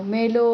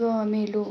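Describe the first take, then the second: First: Cry out. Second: Said in the usual way. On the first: A narrator's reading. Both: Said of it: "मी ओरडलो".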